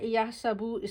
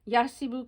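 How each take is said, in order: First: The middle syllable has an 'a' vowel. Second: The middle syllable has an 'i' vowel. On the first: This is the form used in the Quran. "सीन की ज़बर के साथ" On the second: This is the standard pattern form to memorize. "आइन कलमा की ज़ेर के साथ"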